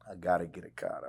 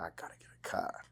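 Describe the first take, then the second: First: Said in the usual way. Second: Hushed, as if plotting; whispered thought. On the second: Retold or imitated. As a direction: whisper it to yourself. Retold inner thought, whispered.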